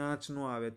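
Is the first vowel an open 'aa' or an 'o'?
aa. The first word has an open, nasal 'aa' vowel. This is how it is said locally. "આપણે કહીએ"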